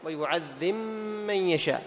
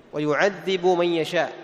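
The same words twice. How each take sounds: First: "ويعذب من يشاء" read with the b of "ويعذب" merged into the m of "من", giving a doubled m; Abu Amr's merged reading. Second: Said in the usual way. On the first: Shown as a demonstration. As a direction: drop the b of "ويعذب" into a long mim on "من". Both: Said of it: "كيف يقرأها؟".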